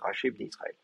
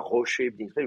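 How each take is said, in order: First: The first word has an A vowel. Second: The first word has an O vowel. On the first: The speaker calls it right. "vous dites racher bnei Israël" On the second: The speaker calls it wrong. "vous dites pas rocher bnei Israël"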